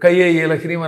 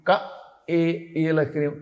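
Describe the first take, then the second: First: Ka and e are joined by a y glide. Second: Ka and e are said without a y glide. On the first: The speaker calls it wrong. "కయ్యే ఏ లహ్రీం అని అనుకోండి, అది యా యా చదువుతున్నాడు వాడు" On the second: The speaker calls it right. "క ఏ ఇక్కడి నుంచి పలకాలి, ఏ అనాలి"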